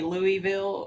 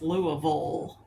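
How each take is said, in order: First: It is said with an outsider's pronunciation. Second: It is said with a local regional pronunciation. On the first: The speaker is not from the region. The speaker calls it wrong. "if you're not from Kentucky, it's probably Louisville" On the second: The speaker is from the region. The speaker calls it right. "But if you're from Kentucky, it's Louisville"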